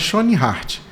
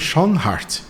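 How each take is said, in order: First: The name is said with Portuguese pronunciation. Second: The name is said with German pronunciation. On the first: "em português a gente fala Schoenhardt" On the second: "em alemão é Schoenhardt"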